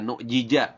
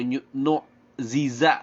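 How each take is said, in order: First: Both middle consonants are sounded as j. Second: Both middle consonants are sounded as z. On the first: "Jangan dibaca nu jija" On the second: "atau nu ziza, salah"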